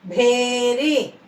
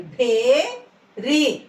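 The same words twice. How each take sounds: First: "భేరి" in one piece, breath released on భ; joined "భేరి" with aspirated భ and falling end; aspirated, joined word. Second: "భేరి" split, breath released on భ, long rising భే; "భేరి" in two syllables with aspirated భ. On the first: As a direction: say "భేరి" unbroken, puffing air on భ. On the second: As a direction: slowly sound out "భేరి", puffing air on భ. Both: Shown as a demonstration. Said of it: "గాలి వదులుతూ పలకాలి".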